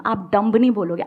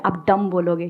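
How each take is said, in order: First: "डम्ब" with the final b sounded; wrong dumb. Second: "डम" ending on m, the b silent; correct dumb. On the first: Teacher showing students the mistake, "डम्ब" with a voiced b. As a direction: close "डम्ब" on an audible b. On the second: Teacher correcting a student, "डम" with silent b. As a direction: end "डम" on a closed m, no b. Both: Shown as a demonstration. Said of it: "क्योंकि बी silent है".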